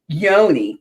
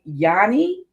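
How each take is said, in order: First: The first vowel sounds like 'oh'. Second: The first vowel sounds like 'ah'. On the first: The speaker calls it right. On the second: The speaker calls it wrong. "I said Yanni"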